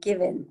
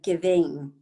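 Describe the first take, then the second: First: The ending is cut short, without the g. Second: The ending is said fully, with the g. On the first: The speaker calls it wrong. "we cut off that ing" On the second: The speaker calls it right. "instead of giving"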